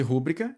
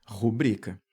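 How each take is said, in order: First: "rúbrica" stressed on RÚ, as a proparoxytone; stress on first syllable. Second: "rubrica" stressed on BRI, as a paroxytone; stress on middle syllable. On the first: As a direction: say RÚ-bri-ca for "rúbrica". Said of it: "receberia um acento lá na proparoxítona". ("rúbrica" proparoxítona, tônica no rú) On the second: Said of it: "A sílaba forte vai cair aqui". ("rubrica" paroxítona, tônica no bri) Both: Shown as a demonstration.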